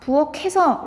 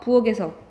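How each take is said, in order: First: The final consonant links over as an aspirated k. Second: The final consonant links over as a plain g. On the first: The speaker calls it right. "이렇게 해야 되는데" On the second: The speaker calls it wrong. "부엌에서 부엌에서 이렇게"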